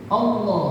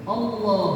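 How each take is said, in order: Both takes have the same delivery.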